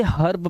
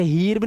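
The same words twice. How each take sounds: First: हर्ब with a short "uh" before r; correct short "a". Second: हीर्ब with long "ee" before r; wrong "ee" vowel. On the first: Teacher giving the correct reading, short-vowelled हर्ब. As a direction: say हर्ब like "hurb". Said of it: "इसे हर्ब पढ़ेंगे". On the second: Teacher showing the misreading, long-vowelled हीर्ब. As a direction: say हीर्ब like "heerb". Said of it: "हीर्ब नहीं पढ़ना है". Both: Shown as a demonstration.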